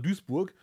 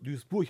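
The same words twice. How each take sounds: First: The word ends with a hard g sound. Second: The word ends with a soft ch sound. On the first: The speaker calls it wrong. "Ich dachte immer Duisburg" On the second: The speaker calls it right. "Duisburg heißt es übrigens"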